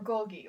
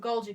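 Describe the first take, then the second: First: "Golgi" said GOL-ghee; hard g in the middle of "Golgi". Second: "Golgi" said GOL-jee; soft g in the middle of "Golgi". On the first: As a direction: say "Golgi" with a hard g in both syllables. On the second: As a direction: say "Golgi" with a j sound in the second syllable. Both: Shown as a demonstration. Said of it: "however the heck you pronounce it".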